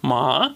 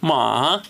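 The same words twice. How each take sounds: First: The pitch rises, sounding surprised. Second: The pitch dips down, then rises. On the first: "Второй тон — это когда вы произносите с интонацией удивления" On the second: "Третий тон — это я называю его волна... Вниз и вверх"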